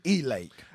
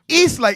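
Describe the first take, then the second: First: The S and T of East are dropped. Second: The S and T of East are pronounced.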